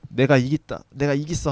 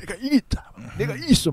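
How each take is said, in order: First: It is said calmly, without much force. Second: It is said with intense, desperate force. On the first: "이거는 뭐 특별히 힘을 안 들인 거긴 한데" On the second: "최민식이 더 좀 처절하게 하잖아요"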